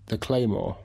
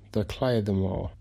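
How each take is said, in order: First: It is said with plain English pronunciation. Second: It is said with a Gaelic-style pronunciation.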